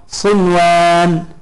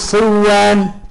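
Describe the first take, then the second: First: The n is pronounced clearly before the w. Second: The n merges into the following w sound. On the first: The speaker calls it right. "إنما تقرأ بها مظهرة" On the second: The speaker calls it wrong. "فلا يجوز لك أن تقول صوان"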